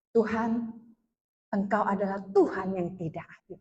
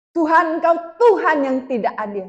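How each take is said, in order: First: Low, soft reproach to God; subdued retold complaint. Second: Raised, pleading complaint to God; mock tearful protest. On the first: Woman telling God He is unfair, low and subdued. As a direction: murmur the accusation low and restrained. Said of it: "saya bilang gini". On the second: Woman protesting to God that He is unfair, imitating a tearful cry. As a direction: imitate crying out an accusation, mildly tearful. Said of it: "Sambil nangis nih".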